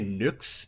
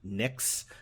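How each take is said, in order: First: The vowel is an 'oo' sound. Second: The vowel is a bright 'ih' sound. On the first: It follows the original Greek pronunciation. "the upsilon um, is pronounced with an U sound" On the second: It follows the anglicized pronunciation. "that um, almost brighter sound, like nix"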